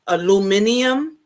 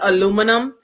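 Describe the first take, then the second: First: It has five syllables, with an extra '-i-' sound. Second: It has four syllables, ending in '-num'. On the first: The speaker calls it wrong. "So you say aluminium" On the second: The speaker calls it right. "instead of aluminum"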